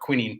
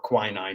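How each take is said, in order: First: It is said with the European pronunciation. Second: It is said with the American pronunciation. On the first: "Europeans call it quinine" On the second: "quinine in America"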